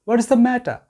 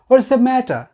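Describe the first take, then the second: Both takes have the same delivery.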